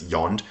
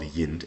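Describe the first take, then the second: First: "yond" with an open o vowel; common West Saxon form. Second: "yind" with a short i vowel; spelled variant. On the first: Giving the usual dialect form, West Saxon "yond" with open o. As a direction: say "yond" to rhyme with pond. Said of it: "common West Saxon". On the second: Showing the spelling in this text, "yind" with short i. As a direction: say "yind" to rhyme with wind. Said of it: "here it's spelled yind". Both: Shown as a demonstration.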